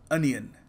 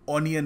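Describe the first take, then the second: First: The first vowel sounds like 'uh'. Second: The first vowel sounds like 'aw'. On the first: The speaker calls it right. "ये इसकी correct pronunciation है" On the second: The speaker calls it wrong. "ऑनियन नहीं"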